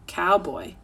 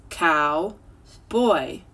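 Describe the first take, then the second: First: Said in the usual way. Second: Put-on "Cow, boy" said as two separate syllables; split syllables. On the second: Shown as a demonstration. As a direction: stretch "Cow, boy" into two clear beats. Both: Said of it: "You can stretch it in two syllables".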